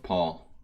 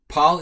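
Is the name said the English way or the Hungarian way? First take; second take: English; Hungarian. First: The name is said with an English vowel. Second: The name is said with a Hungarian vowel.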